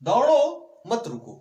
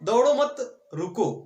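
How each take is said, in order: First: There is a pause right after the first word. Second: There is a pause right after the second word. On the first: Keep running and do not stop. "क्या कह रहा है कि दौड़ते रहो मत रुको" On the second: Do not run; stop. "अब क्या कह रहा है कि मत दौड़ो, रुक जाओ"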